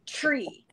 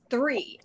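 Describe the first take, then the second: First: "tree" with a hard t, as the mistake; teacher quoting TREE. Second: "three" with th, falling; corrected THREE. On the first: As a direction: say "tree" for three, with a plain t. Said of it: "Stop saying". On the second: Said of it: "It's three". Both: Retold or imitated.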